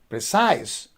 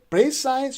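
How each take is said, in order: First: The stress is on the second syllable. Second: The stress is on the first syllable. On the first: The speaker calls it right. "precise on the second syllable" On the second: The speaker calls it wrong. "so you are stressing the first syllable"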